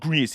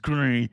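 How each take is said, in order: First: It is said with a non-French pronunciation. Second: It is said with a French pronunciation. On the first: The speaker calls it wrong. "It's not gris" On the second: The speaker calls it right. "I believe that's how you pronounce it in uh, French"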